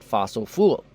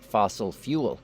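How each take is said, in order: First: The second word sounds like 'fool'. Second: The second word sounds like 'fyool'. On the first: The speaker calls it wrong. "not fossil fool" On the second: The speaker calls it right. "learn how to pronounce fossil fuel"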